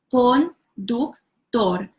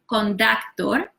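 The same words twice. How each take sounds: First: The vowels are pure Spanish vowels. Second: The vowels sound like English vowels. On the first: The speaker calls it right. "but conductor" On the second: The speaker calls it wrong. "not conductor"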